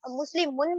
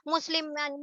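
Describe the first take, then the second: First: مسلمن ending in a short u; "un" sound closing مسلمن. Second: مسلمن ending in a short a; "an" sound closing مسلمن. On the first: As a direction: say مسلمن as muslimun. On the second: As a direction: say مسلمن as musliman. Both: Shown as a demonstration. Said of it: "کون کون سی sound سنائی".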